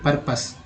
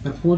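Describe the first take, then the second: First: The second syllable sounds like 'pus'. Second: The second syllable sounds like 'pose'. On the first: The speaker calls it right. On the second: The speaker calls it wrong. "परपोज नहीं"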